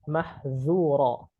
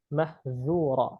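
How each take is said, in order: The two takes are said the same way.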